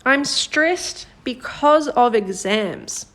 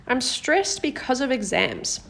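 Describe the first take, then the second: First: Slow, careful read of the example sentence. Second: Said in the usual way. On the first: Shown as a demonstration. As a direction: read it slowly, word by word. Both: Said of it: "This first one is".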